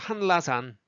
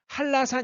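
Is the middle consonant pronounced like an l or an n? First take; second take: n; l. First: The middle consonant is said as a clear n. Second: The middle consonant is said as an l. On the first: "발음하면 해요" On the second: "근데 실제로는 한라산 이렇게 하잖아요"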